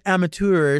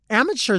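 First: The ending does not sound like 'chur'. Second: The ending sounds like 'chur'. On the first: "But then amateur sounds like, oh, okay. That's going to be enough of that" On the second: "that's so ugly"

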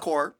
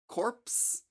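First: The P and S sounds are silent. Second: The P and S sounds are pronounced. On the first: The speaker calls it right. "No S, just core" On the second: The speaker calls it wrong. "so I guess we're not pronouncing the P or the S"

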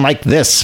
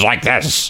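First: The voice is smoother and less gravelly. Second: The voice is rough and more gravelly. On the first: This is the character's earlier voice. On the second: This is the character's later voice.

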